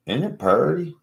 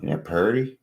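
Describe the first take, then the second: First: Higher, cooing, as if showing off; high cutesy voice. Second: Said in the usual way. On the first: Pretend. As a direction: coo it up high like a child. Repeats line, higher and cuter.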